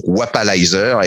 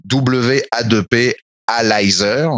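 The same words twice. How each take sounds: First: Said in the usual way. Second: "W A deux P" spelled slowly letter by letter, then "Alizer"; slow spelling of "W A deux P Alizer". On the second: Shown as a demonstration. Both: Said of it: "donc, Wapalizer".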